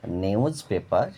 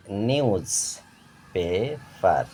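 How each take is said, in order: First: Said in the usual way. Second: নিউজ পেপার with gaps, নিউজ, পে, পার; split in three syllables. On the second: Shown as a demonstration. Teacher showing syllables, নিউজ পেপার slowly broken up. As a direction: pause between the parts of নিউজ পেপার. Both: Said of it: "তিনবারে ভেঙে উচ্চারণ করা হয়".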